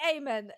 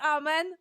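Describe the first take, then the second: First: It is pronounced a non-Polish way. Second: It is pronounced the Polish way. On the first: "but others say amen" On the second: "some actors say it like in Poland, which is amen"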